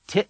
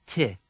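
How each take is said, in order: First: Ti clipped sharply at the end; abrupt cut-off. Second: Ti with an unchecked, fading vowel; open ending. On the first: Teacher asks learners to repeat, Ti cut short. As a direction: stop Ti dead on the vowel. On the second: Teacher asks learners to repeat, Ti left open. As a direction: let Ti finish without a stop. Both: Shown as a demonstration. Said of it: "Repeat after me".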